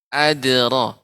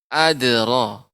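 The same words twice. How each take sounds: The two takes are said the same way.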